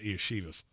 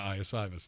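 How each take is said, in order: First: The middle consonant is a sh sound. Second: The middle consonant is a plain s sound. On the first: The speaker calls it wrong. "I'm not calling him Iashivas" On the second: The speaker calls it right. "There's no H in it"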